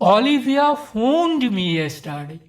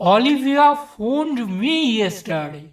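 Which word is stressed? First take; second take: phoned; me. First: The stress falls on the word phoned. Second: The stress falls on the word me. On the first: It was a phone call, not another action. "দ্বিতীয় ক্ষেত্রে ফোন শব্দটির উপর জোর দেওয়া হয়েছে।" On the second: The call was to me, not someone else. "তৃতীয় ক্ষেত্রে আমাকে এই শব্দটির উপর জোর দেওয়া হয়েছে।"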